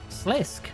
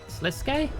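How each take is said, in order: First: The name ends on the consonant sound k. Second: The name ends with a sounded final vowel. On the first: The speaker calls it wrong. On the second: The speaker calls it right.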